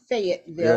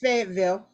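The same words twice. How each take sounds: First: It is said with the general pronunciation. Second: It is said with the local pronunciation.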